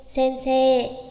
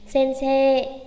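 No difference in how they are said.

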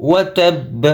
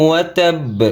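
The two takes are said the same way.

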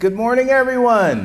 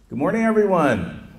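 First: It is said with more life and energy. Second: It is said in a calm, ordinary way.

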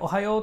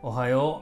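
First: It is said cheerfully with high energy. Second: It is said flatly with low energy.

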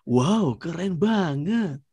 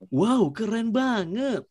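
First: The voice is deep with more bass. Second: The voice is at a medium pitch. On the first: "Yang deep" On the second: "Yang middle"

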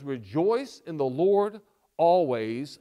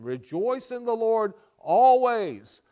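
First: It is read in a plain, calm way. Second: It is read with great enthusiasm.

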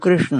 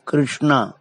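First: The name ends without an added long vowel. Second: The name ends with an added long 'aa' vowel. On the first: This is the actual form of the name. The speaker calls it right. "जबकि नाम कृष्ण है" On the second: This is how English speakers say it. The speaker calls it wrong. "अंग्रेज तो कृष्णा ही बोलते हैं"

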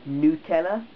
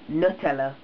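First: The first syllable sounds like 'newt'. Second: The first syllable sounds like 'nut'. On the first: The speaker calls it wrong. "Who says Nutella?" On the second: The speaker calls it right. "it's got chocolate spread with nuts in"

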